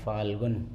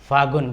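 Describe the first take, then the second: First: An 'l' sound is heard before the 'g'. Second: No 'l' sound is heard before the 'g'. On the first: This is the standard, careful form. "वैसे शुद्ध उच्चारण है फाल्गुन" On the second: This is the everyday spoken form. "हम बोल देते हैं फागुन"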